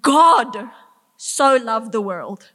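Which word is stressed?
god. The stress is on 'God'. It is the maker of the universe who loved. "The maker of the universe loved what he created"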